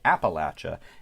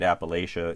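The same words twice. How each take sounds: First: It uses the southern US pronunciation. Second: It uses the northern US pronunciation. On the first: The speaker is from south of the Mason-Dixon line. "if you're from south of the Mason-Dixon line, it's more likely you say Appalachia" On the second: The speaker is from north of the Mason-Dixon line. "I grew up pronouncing it Appalachia. You may very well have done so too if you're from north of the Mason-Dixon line"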